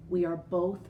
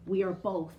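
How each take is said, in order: Both takes have the same delivery.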